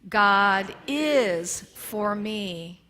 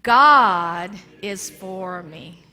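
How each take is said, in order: First: The word is is stressed. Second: The word God is stressed. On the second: "we're going to start with God"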